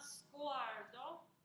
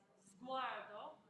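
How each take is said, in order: First: It begins with a hissing s sound. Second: It begins with a buzzing z sound. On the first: The speaker calls it wrong. "So it's not" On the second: The speaker calls it right. "the I P A has a Z sound"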